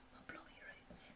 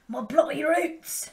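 First: Breathy whisper of the same line; hushed whisper. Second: Slow, louder and higher drawn-out cry; dramatic roar. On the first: Vlogger answering her own roar with an eerie whisper. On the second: Vlogger hamming up going back to her roots, roaring. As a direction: belt it out like a rock anthem. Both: Acted. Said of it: "go back to my roots".

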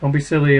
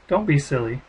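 First: Don't light, silly pushed up and out; stress on silly. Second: Don't hit hard, then silly light; stress on Don't. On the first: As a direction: land the weight on silly. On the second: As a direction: lean on the word Don't, silly thrown away. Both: Shown as a demonstration. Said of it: "it's a date, or don't be silly".

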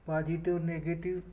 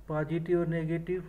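No difference in how they are said.

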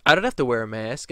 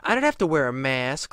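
First: Louder flat refusal; plain defiant retort. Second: Mocking entitled whine; whiny Karen. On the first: Retold or imitated. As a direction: snap back a refusal. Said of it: "then she goes". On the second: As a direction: whine it like a spoiled adult. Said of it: "And she goes".

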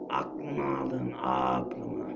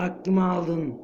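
First: A deep, dragging parody of his own line; mock deep voice. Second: Said in the usual way. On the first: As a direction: drop the voice very low and repeat it mockingly. Repeats own line mockingly. (alaycı, çok kalın bir sesle)

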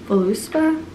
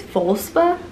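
First: Tentative "Voluspa" with an "oo" after the L; alternative pronunciation. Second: Tentative "Volspa", run together as VOL-spa; unsure pronunciation. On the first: Vlogger retrying a candle brand's name, unsure "Voluspa". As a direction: say "Voluspa" in three syllables, vo-LOO-spa. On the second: Vlogger guessing a candle brand's name, unsure "Volspa". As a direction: say "Volspa" in two syllables, no vowel after the L. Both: Real, not acted. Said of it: "I think it's Volspa?".

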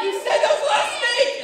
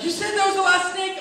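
First: Extremely high, loud squealed protest; screeching mock panic; hysterical accusation. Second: High, loud, upset mock protest; scared, high-pitched outrage; panicked accusation. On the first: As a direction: shriek it like a brother at the end of his wits. Brother accuses again, more frantic. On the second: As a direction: squeal the accusation like a betrayed little brother. Terrified brother accuses teller.

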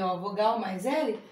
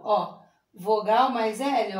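First: Laughing repeat. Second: Slow, spelled-out rule; slow teaching. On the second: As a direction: spell it out slowly for the kids. (devagar, explicando a regra) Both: Shown as a demonstration. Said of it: "Mas quando ele vem depois da vogal".

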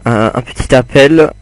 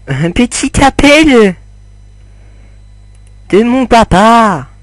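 First: Said in the usual way. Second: Much higher, mock-dramatic voice; joking put-on voice. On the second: Gamer joking to viewers about a call, high mock voice. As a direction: squeak it out as a fake joke. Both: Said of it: "Non, je déconne".

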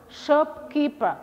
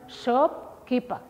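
First: Shopkeeper drawn out slowly, higher, each syllable clear; slow model word. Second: Said in the usual way. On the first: Shown as a demonstration. Teacher models the new word for pupils, slow and clear.

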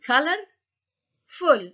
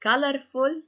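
First: "colorful" in two parts, color, then ful; split into syllables. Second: Said in the usual way. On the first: Shown as a demonstration. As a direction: break "colorful" after "color", each part raised and separate. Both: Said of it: "كأنها مكونة من جزئين".

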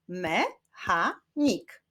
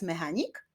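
First: "Mechanik" very slowly split as me, cha, nik; syllable by syllable. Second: Said in the usual way. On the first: Shown as a demonstration. Teacher clapping syllables with pupils, "Mechanik" said syllable by syllable. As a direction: sound out "Mechanik" in three separate beats. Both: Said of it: "Wyklaszczmy sylaby w tych wyrazach".

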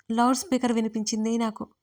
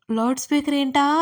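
First: Said in the usual way. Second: Higher, louder, rising on ఏంటా; puzzled question. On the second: Retold or imitated. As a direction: mimic the listener's baffled question. అనుకునేరు.

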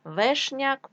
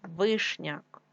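First: Вешняк with е instead of и; wrong variant Вешняк, first vowel е; е in first syllable. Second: Said in the usual way. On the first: Shown as a demonstration. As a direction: say Вешняк with open e after В. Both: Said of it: "тому що вишня".

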